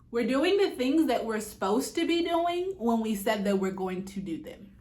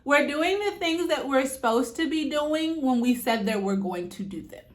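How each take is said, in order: First: It is said at normal volume. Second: It is said louder, projected.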